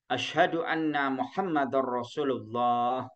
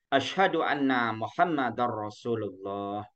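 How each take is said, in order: No difference in how they are said.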